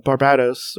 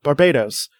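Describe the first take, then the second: First: Barbados said as bar-BAD-os with a short a; a tentative bar-BAD-os; first try at the name. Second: Barbados said as bar-BAY-tus; corrected name. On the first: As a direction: Barbados with "bad" in the middle, b sounding like p. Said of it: "how did I say that before?". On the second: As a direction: Barbados with a long ay and a t-like middle. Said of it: "That's definitely not". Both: Shown as a demonstration.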